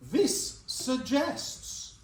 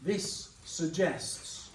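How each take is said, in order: First: Very slow, stretched sentence starter; slow teacherly prompt; drawn-out prompt. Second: Very slow, drawn-out sentence starter; slow teacherly prompt. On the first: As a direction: draw it out to invite the class. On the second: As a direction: stretch it for the class to finish. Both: Shown as a demonstration. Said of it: "carry that sentence on".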